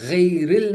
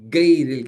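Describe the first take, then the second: First: The first sound is a throaty guttural fricative. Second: The first sound is a plain hard stop. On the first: The speaker calls it right. "गैरिल नहीं कह पाते" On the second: The speaker calls it wrong. "गैरिल कहते हैं"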